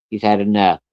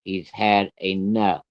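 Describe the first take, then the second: First: Said in the usual way. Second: Very slow, word by word; measured, deliberate "He's had enough"; firm final warning. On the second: Retold or imitated. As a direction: say it slowly as a last warning. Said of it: "I'm gonna tell you one more time".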